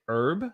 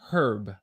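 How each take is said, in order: First: The word begins with a silent H. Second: The word begins with an audible H sound. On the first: "Americans say herb" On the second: "a lot of Brits and Australians, they say herb"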